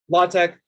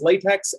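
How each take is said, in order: First: The word ends with a hard k sound. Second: The word ends with a ks sound. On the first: The speaker calls it right. "that is a hard X sound, X as in chi" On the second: The speaker calls it wrong. "the one way you don't really want to talk about it"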